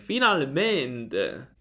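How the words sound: It is said in a happy, joyful way. The speaker feels joy after waiting. "Gioia anche"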